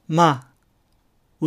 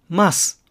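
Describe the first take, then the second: First: The final s is dropped completely. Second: The final s is pronounced clearly.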